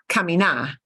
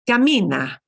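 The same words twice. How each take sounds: First: The stress is on the last syllable. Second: The stress is on the second-to-last syllable. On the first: The speaker calls it wrong. "Not camina" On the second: The speaker calls it right. "second to last syllable"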